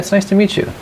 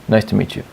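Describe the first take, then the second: First: It is said with an upbeat, lively feeling. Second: It is said in a flat, low tone.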